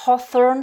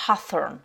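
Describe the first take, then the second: First: British "hawthorn" with a rounded "aw"; British accent. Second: American "hawthorn" with an open "ah"; American accent. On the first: Teacher contrasts two accents for learners, British accent. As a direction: say "hawthorn" the British way, higher and louder. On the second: Teacher contrasts two accents for learners, American accent. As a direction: say "hawthorn" the American way, slower, open first vowel. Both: Shown as a demonstration. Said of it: "selon l'accent britannique ou américain".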